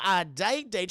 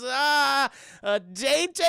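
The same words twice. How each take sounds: First: "date date" stated firmly with a falling end; stress on date. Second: High, loud mock-taken-aback echo; startled question. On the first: Retold or imitated. Gideon correcting Mabel, "date date" firm and falling. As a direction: lean on the doubled "date" as a clarification. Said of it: "She says". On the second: Mabel echoing Gideon's invitation, high and startled. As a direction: stall on "Ah", then query it pitched up. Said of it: "She goes".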